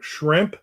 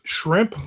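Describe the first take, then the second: First: Whistled sh through tooth gap again; teeth whistle. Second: Whistled sh through tooth gap; teeth whistle. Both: Shown as a demonstration. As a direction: let the teeth whistle on Shrimp. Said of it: "teeth whistle when I say shrimp".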